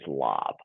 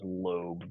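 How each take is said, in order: First: The vowel is a short o sound. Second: The vowel is a long o sound. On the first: The speaker calls it wrong. "versus lob" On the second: The speaker calls it right. "we're still going to pronounce that as lobe"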